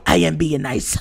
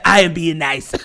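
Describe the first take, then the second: First: It is said in a put-on big red voice. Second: It is said in his normal voice.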